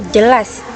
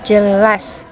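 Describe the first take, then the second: No difference in how they are said.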